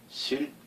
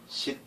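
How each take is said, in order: First: The syllable ends in an l sound. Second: The syllable ends in a t sound. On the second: "이 발음을 해보면은 씻"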